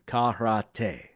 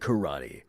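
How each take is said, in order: First: It is said in a Japanese-style way. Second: It is said in a Canadian-English way, like 'kerody'. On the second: "the Canadian martial art of karate. K E R O D D Y"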